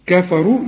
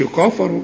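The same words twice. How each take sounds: First: كفروا with a thin "ka"; light K vowel. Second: كفروا with a dark, thick "ka"; wrong heavy K. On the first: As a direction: keep the first vowel of كفروا light and fronted. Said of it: "قول لي كفى". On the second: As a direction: mispronounce كفروا with a heavy first vowel. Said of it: "ما تقولش". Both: Shown as a demonstration.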